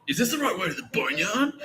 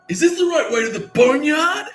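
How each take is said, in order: First: Retold call. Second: Much higher and louder, slow, with a laugh in it; loudly asking the way to the Boneyard on purpose; super loud. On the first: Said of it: "that call". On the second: Retold or imitated. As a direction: belt the question out for the whole jail to hear. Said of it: "fucking super loud".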